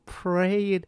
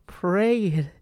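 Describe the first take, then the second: No difference in how they are said.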